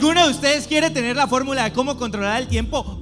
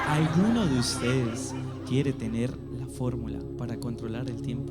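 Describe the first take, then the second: First: It is said fast. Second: It is said slowly.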